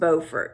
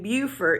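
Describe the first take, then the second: First: It uses the North Carolina pronunciation. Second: It uses the South Carolina pronunciation. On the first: It names the town in North Carolina. The speaker calls it right. "it is pronounced Beaufort" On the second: It names the town in South Carolina. The speaker calls it wrong. "they're either A, mispronouncing it, or B, they're talking about Beaufort, South Carolina"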